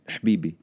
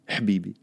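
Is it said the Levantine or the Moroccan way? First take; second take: Moroccan; Moroccan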